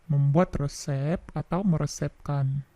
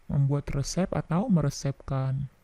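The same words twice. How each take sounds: The two takes are said the same way.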